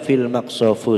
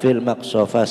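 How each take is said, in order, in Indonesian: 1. Kata terakhir berakhir dengan vokal u. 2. Kata terakhir berakhir dengan vokal a.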